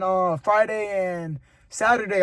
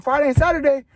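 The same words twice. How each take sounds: First: Said in the usual way. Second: High, loud surprised question; grandma asks back in surprise. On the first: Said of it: "And I was like". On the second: Retold or imitated. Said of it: "She was like".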